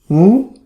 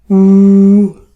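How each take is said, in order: First: It is said with the second tone. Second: It is said with the first tone.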